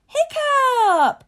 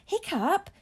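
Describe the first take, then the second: First: Very high, loud calling-out; long, ringing shout that falls at the end; joyful shout. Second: High, rising, wondering question; marvelling, lifted at the end; murmur of wonder. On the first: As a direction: holler the name in delighted recognition. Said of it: "shouted Thuggery the Meathead, joyfully recognizing". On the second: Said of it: "murmur of wonder from the crowd as they whispered". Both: A narrator's reading.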